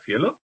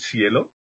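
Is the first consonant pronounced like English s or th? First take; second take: th; s. First: The first consonant sounds like a th. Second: The first consonant sounds like an s. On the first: This is how speakers who do not use seseo say it. "en vez de" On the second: This is how most Spanish speakers say it. "el resto de hispanohablantes todos sesean, ¿de acuerdo? Dirían cielo"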